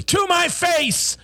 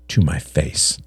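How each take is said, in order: First: Controlled start bursting into a high shout; sudden eruption. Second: Said in the usual way. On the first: A narrator's reading. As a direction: erupt on the last words, drawn out and high. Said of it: "John's voice erupted".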